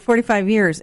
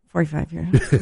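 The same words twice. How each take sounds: First: It is said loudly and clearly. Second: It is said very quietly and low.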